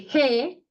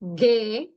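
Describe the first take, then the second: First: It starts with a breathy h sound. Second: It starts with a hard g sound. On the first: The speaker calls it right. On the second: The speaker calls it wrong.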